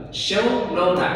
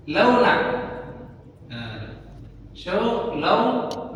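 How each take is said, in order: First: "Show launa" said slowly, stressing "show"; dialect phrase. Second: "show launa" drawn out very slowly, rising on "launa"; dialect phrase. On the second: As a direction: spell out "show launa" for learners. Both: Shown as a demonstration. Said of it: "ini show launa".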